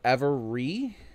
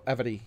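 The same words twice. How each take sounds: First: The middle consonant is an R sound. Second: The middle consonant is a D sound. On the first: "If you were to say every" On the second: "I made a D sound instead of a R sound"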